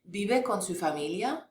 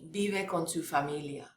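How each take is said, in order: First: The voice rises at the end. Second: The voice falls at the end. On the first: It asks whether you live with your family. "Your voice goes up" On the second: It states that he lives with his family. "So if I said he lives with his family"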